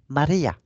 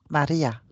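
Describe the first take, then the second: First: The name is said with a marked accent. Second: The name is said plainly, without a marked accent.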